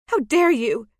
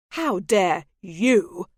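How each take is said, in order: First: Loud, high indignant retort; outraged. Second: Slow, loud, falling accusation; slow fury. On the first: Maggie hurls her outrage at the lord, loud and high. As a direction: fling it back at him, scandalised. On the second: The lord turns her outrage back on her, slow and loud. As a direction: lean into each word, furious. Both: Acted.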